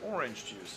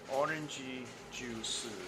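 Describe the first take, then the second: First: It is said in plain native English. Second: It is said with an extra vowel after orange. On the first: "the narrator said" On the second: "they went orangey juice like that"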